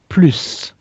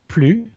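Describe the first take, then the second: First: The final S sound is pronounced. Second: The final S sound is silent. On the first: It means more. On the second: It means no more, as in not anymore.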